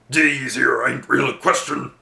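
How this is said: It is said in a put-on orc voice.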